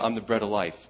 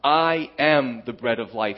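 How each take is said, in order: First: It is said in a casual, offhand way. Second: It is said with strong, authoritative emphasis.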